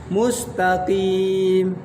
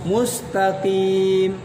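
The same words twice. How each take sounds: No difference in how they are said.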